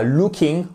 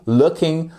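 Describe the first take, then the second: First: LOOKING with a long oo as in Luke; French-style "looking", tight long oo; wrong long vowel. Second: LOOKING with a short u as in book; English "looking", short first vowel; correct short vowel. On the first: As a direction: say "looking" as LOO-king. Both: Shown as a demonstration. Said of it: "et pas looking".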